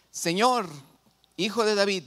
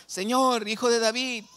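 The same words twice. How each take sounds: First: Raised, higher-pitched plea read aloud; crying out. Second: Higher, insistent cry to the Lord; imitated shouting. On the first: Retold or imitated. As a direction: call out as a woman pleading to the Lord. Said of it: "clamaba diciéndole". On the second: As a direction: act out a woman shouting her plea, pitched well up. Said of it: "le estaba gritando".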